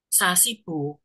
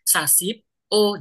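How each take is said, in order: First: It flows as one word, with a b sound. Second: It stops after sasip, with a p sound. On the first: The speaker calls it right. "Ini jadi satu, karena kan hurufnya B. Makanya sasibo" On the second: The speaker calls it wrong. "kamu bacanya kayak berhenti. Sasip O, jadi kayak P malahan"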